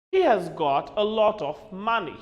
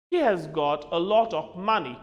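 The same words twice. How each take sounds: The two takes are said the same way.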